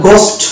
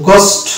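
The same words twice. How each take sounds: Both takes have the same delivery.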